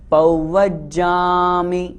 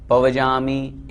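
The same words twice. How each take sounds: First: पौवज्जामि chanted slowly with a doubled ज्ज; correct pronunciation. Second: पवजामि said quickly with a single ज; spoken plainly as पवजामि, short and careless; wrong pronunciation. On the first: Teacher models the pure way to say पौवज्जामि, slow and chanted. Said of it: "शुद्ध उच्चारण करें". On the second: Teacher shows students the wrong way, पवजामि, said plainly. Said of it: "इस तरह बोलते हैं, वो अशुद्ध हो जाता है।". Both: Shown as a demonstration.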